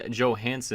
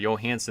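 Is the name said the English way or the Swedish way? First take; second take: English; Swedish. First: The name is said with English sounds. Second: The name is said with Swedish sounds. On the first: The speaker calls it wrong. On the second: The speaker calls it right.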